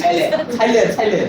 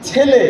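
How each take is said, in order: First: ছাইলে with a stretched "chai" instead of ছেলে; regional ছাইলে. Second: ছেলে said cleanly as "chhele"; textbook-correct ছেলে; standard pronunciation. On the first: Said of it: "আপনাদের এখানে বলে ছাইলে". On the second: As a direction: give the standard ছেলে with a plain "e". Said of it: "প্রমিত উচ্চারণ লিখিত রূপ হচ্ছে ছেলে". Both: Shown as a demonstration.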